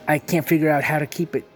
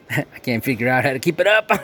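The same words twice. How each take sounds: First: Said in the usual way. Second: Laughing. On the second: Real, not acted. Laughing at wobbly table.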